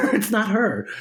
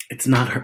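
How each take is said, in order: First: It's not her repeated higher through a laugh; laughing insistence. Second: Said in the usual way. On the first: Real, not acted.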